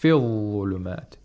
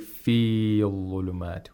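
First: The vowel after f is short. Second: The vowel after f is long. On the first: The speaker calls it right. "We automatically pronounce the long vowel like a short vowel" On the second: The speaker calls it wrong. "We don't say fil-ulumat. We don't pronounce the long vowel"

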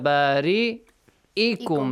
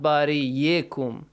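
First: A glottal stop is said before the ending. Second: A y sound is said before the ending. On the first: The speaker calls it right. "you pronounce it Hamza, not waw, not ya" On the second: The speaker calls it wrong.

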